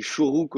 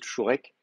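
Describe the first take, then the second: First: "Shuruk", second vowel an ou, as in modern Hebrew; modern Hebrew pronunciation. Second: Put-on "Shurek", ou then e, the older form; traditional vowel name. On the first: Teacher showing students the modern vowel name, modern "Shuruk" with two ou sounds. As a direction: say "Shuruk" with ou in both syllables. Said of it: "On dit Shuruk au lieu de Shurek". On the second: Teacher contrasting with modern Hebrew, traditional "Shurek" ending in -ek. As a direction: say "Shurek" with an e in the last syllable. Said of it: "au lieu de Shurek". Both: Shown as a demonstration.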